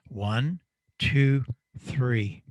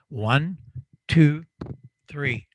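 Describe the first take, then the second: First: It is played through halved amplifier power. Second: It is played through doubled amplifier power. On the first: "I'm going to take away half of my power" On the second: "it's going to double my output, double my power"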